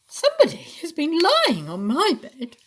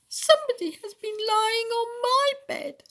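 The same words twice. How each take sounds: First: The voice is mellow and medium pitched. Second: The voice is high, small and squeaky. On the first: A medium-sized mother bear is speaking. "in a mellow, middle-sized voice" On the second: A small baby bear is speaking. "wailed Baby Bear in a squeaky"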